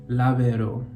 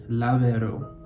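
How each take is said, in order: Both takes have the same delivery.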